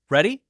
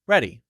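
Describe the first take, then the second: First: The pitch rises at the end. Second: The pitch falls at the end. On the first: It asks whether the other person is ready. "the rising uh, tone" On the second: It states that the speaker is ready. "that goes down. That tells you I am ready"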